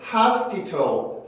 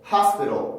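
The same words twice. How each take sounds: First: The t is a clear, crisp t sound. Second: The t is a quick, soft d-like flap. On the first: Fewer people say it this way. "hospital 이라고 하는 사람보다는" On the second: More people say it this way. "hospital 이라고 발음하는 사람들이 더 많죠"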